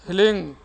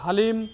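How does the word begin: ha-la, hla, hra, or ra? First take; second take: hla; ha-la. First: It begins with h followed directly by l. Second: It begins with h, a vowel, then l. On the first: The speaker calls it right. "ह ल दीर्घिकार ऊपर अनुस्वार" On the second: The speaker calls it wrong. "बहुत सारे लोग हलीम तो ह्रीम तो रीम तो ऐसे बोलते हैं"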